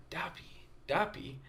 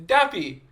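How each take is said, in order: First: Hushed, near-whispered repetition; puzzling it over. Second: High, loud mimicked kid; kids insisting. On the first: Retold or imitated. Visitor pondering the kids' word, hushed puzzlement. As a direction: repeat it softly to yourself, trying to work it out. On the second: Little kids repeating it to the visitor, insistent high voice.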